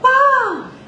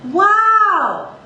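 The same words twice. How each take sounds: First: It flips up into a lighter head voice. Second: It resonates in chest voice through the mouth. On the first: The speaker calls it wrong. "I'm not gonna go" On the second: The speaker calls it right. "feel how it reverberates out of the mouth"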